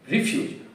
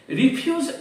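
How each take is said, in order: First: The stress is on the first syllable. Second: The stress is on the second syllable. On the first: It means rubbish. "which is a formal word for rubbish" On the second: It means to decline something. "the pronunciation has the stress on the second syllable"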